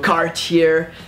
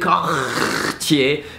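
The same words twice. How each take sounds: First: The R sounds English; no final R. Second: The R sounds French, from the throat. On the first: "don't pronounce the R at the end" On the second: "pronounce the R as a French R"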